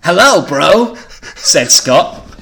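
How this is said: It is read in a surfer voice.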